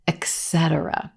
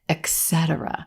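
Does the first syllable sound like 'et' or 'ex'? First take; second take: ex; ex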